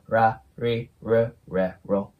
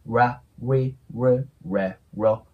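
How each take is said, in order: First: The syllables begin without a small u sound. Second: The syllables begin with a small u sound. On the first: "舌を上顎につけずに練習すると" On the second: "それに先ほどの小さいウを足してあげたらいいので"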